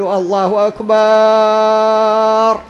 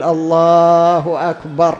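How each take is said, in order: First: الله أكبر with أكبر dragged out very slowly and higher; wrong stretched akbar. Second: الله أكبر slow and even, stress on الله, أكبر short; correct call. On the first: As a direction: overdraw the final أكبر. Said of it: "خطأ". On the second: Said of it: "وإنما يقول". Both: Shown as a demonstration.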